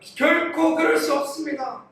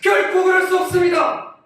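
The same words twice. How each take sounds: First: It is said in a plain, mild tone. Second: It is said sharply, as if rebuking.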